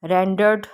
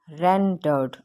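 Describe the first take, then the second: First: Said in the usual way. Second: rendered parted as "ren-derd", first syllable stressed. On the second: Shown as a demonstration. Teacher demonstrating stress, rendered split with stress on "ren". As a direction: break rendered after "ren", stressing that part. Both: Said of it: "यहाँ पे stress दिया जा रहा है".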